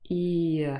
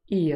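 First: The sound is said slowly and drawn out. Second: The sound is said quickly and smoothly. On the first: "moving from I to A uh in one smooth movement to create a new sound" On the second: "say it a little bit faster so it sounds more natural"

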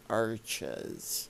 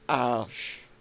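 First: The middle consonant is a hard ch sound. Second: The middle consonant is a soft sh sound. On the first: The speaker calls it wrong. "It's not pronounced arches" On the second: The speaker calls it right. "A nice soft sh sound. ... That's how you say it in French"

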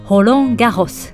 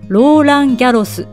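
First: The name is said with French pronunciation. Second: The name is said with Japanese pronunciation. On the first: The speaker calls it right. "実際の発音" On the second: The speaker calls it wrong. "日本ではローランギャロスと呼ばれますが"

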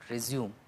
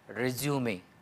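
First: The word is said with an English pronunciation. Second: The word is said with a French pronunciation. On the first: The speaker calls it wrong. "it is not resume, which is mispronunciation" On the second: The speaker calls it right. "it is resume, resume, which is French"

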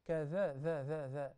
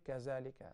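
First: The middle consonant is a th sound. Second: The middle consonant is a z sound. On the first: The speaker calls it right. "look at the tip of my tongue" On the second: The speaker calls it wrong. "you don't say kazalika because there is no word in Arabic kazalika"

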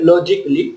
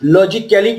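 First: The ending sounds like 'klee' with no vowel. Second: The ending sounds like 'kally' with a vowel. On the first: The speaker calls it right. "কি হবে" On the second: The speaker calls it wrong. "লজিক্যালি কিন্তু নয়"

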